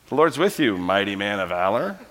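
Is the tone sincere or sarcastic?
sarcastic. It is said mockingly and sarcastically.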